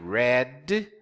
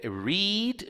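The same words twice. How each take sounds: First: The word sounds exactly like red. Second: The word does not sound like red. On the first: The reading happened in the past. "pronounced red, como se fosse a cor vermelha" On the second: The reading happens in the present. "read no presente eu leio"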